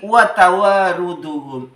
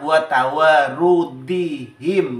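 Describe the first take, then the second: First: The word ends with the sounds -duhum. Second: The word ends with the sounds -dihim. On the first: The speaker calls it wrong. "Ini keliru" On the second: The speaker calls it right. "dibaca khofat"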